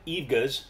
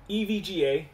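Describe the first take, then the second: First: The name is pronounced as a single word. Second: The name is spelled out as separate letters. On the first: The speaker calls it wrong. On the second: The speaker calls it right.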